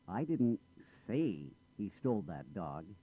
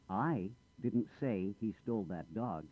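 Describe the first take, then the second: First: The stress falls on the word say. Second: The stress falls on the word I. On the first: It was implied rather than said. "I didn't say it. I might have implied it" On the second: Someone else said it. "I didn't say anything. Someone else said it"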